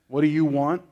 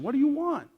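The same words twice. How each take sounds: First: The question is said with a contemptuous tone. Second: The question is said with a kind tone. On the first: The asker is dismissive of the people asking. The speaker calls it wrong. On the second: The asker acknowledges that they are searching for something. The speaker calls it right.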